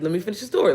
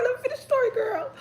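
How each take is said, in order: First: Said in the usual way. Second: Very high-pitched playful squeal; squealing plea. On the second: Real, not acted. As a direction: squeal it up high like teasing a friend.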